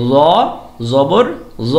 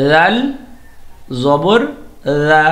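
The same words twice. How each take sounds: First: ল said heavy with a rounded o; heavy o sound. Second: লা said thin and light with an open a; thin a sound. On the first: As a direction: thicken ল so the vowel leans to o. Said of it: "জটাকে কিন্তু অ sound দিয়ে বলতে হয়". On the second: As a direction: keep লা light with a clear a vowel. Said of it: "যা কিন্তু আ sound দিতে হবে". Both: Shown as a demonstration.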